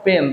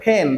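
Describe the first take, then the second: First: The first sound is a plain, unaspirated p. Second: The first sound is a breathy, aspirated p. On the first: The speaker calls it wrong. "This is not" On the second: The speaker calls it right. "তখন এটাকে বলা হয় aspirated sound"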